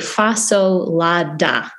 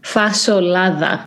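First: It is said with an American English pronunciation. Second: It is said with a Greek pronunciation. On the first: "how, like, you should pronounce it in America" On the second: "the traditional Greek way"

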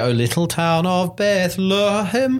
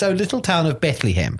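First: Bethlehem has a reduced schwa vowel. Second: Bethlehem has full vowels with no schwa. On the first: The speaker calls it wrong. "it just sounds wrong to hear" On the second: The speaker calls it right.

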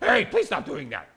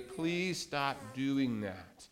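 First: It is said in a harsh, demanding tone. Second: It is said in a nice, gentle tone.

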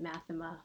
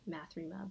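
First: The name is said with no r sound. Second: The name is said with an r sound. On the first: This is the speaker's own pronunciation. "I pronounce it Mathema" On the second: This is how some other people say it. "Some people say Mathrema"

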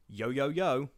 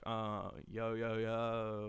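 First: It is said in a sincere tone. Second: It is said in a sarcastic tone.

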